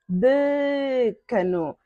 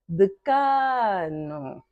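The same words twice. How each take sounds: First: The stress is not on the middle syllable. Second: The stress is on the middle syllable. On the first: The speaker calls it wrong. "Você não vai falar decano" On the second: The speaker calls it right. "K é a sílaba tônica"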